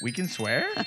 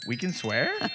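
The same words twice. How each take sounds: First: It is said as a rising question. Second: It is said as a rising question.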